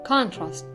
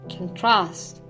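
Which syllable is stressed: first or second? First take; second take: first; second. First: The stress is on the first syllable. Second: The stress is on the second syllable. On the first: It is used as a noun. "the nouns stress is placed on the first syllable" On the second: It is used as a verb. "the verbs on the second"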